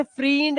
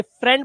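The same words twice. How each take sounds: First: फ्रींड with a long 'ee'; wrong pronunciation. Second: फ्रेंड with a short open 'e'; correct pronunciation. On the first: Teacher showing students what not to say, wrong pronunciation. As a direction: stretch फ्रींड to rhyme with fiend. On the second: Teacher giving students the right reading, correct pronunciation. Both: Shown as a demonstration. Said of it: "इसे फ्रींड नहीं बोलते".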